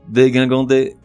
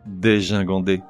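First: The middle syllable starts with a hard g. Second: The middle syllable starts with a soft zh. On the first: The speaker calls it wrong. "tout d'abord la mauvaise prononciation" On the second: The speaker calls it right. "suivie de la bonne"

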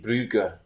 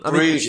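First: The name is said the Flemish way, ending 'ugh-uh'. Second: The name is said the English way, ending 'oozh'. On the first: The speaker calls it right. "It's Flemish" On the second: The speaker calls it wrong. "apparently Bruges is actually meant to be"

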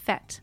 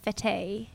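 First: It is said with a short vowel, like 'fet'. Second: It is said with a long vowel, like 'fate'. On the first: The speaker calls it right. "pronounced fet" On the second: The speaker calls it wrong. "not fete"

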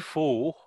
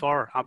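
First: The word does not sound like 'fur'. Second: The word sounds like 'fur'. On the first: The speaker calls it wrong. "I always want to say pho" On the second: The speaker calls it right. "People call it fur"

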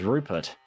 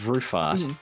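First: The middle consonant is a p sound. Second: The middle consonant is an f sound. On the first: This is how the reader said the name in their head. "but I'm reading it all as Rupert" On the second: This is how the audiobook narrator says the name. "Penn is reading the name as Rufart"

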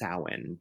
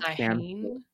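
First: The M and H together make a W sound. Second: The M and H are sounded as written. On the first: This is how the name is actually said. The speaker calls it right. "creates the W sound. So that's how it's pronounced" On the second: This is how the name looks in writing. The speaker calls it wrong. "it's spelled like Samhain"

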